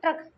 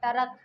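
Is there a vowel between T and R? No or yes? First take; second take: no; yes. First: T and R are joined as one cluster. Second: A vowel separates the T and R sounds. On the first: The speaker calls it right. "आधे पूरे की आवाज आ रही है ट्रक" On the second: The speaker calls it wrong. "अलग अलग बोलते तो ऐसे बोलते"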